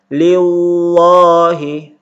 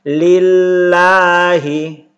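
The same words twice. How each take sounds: First: The 'l' is said thick and heavy. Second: The 'l' is said thin and light. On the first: The speaker calls it wrong. "jangan dibaca" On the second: The speaker calls it right. "dibaca tarqiq atau dibaca tipis"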